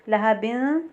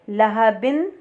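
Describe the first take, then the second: The two takes are said the same way.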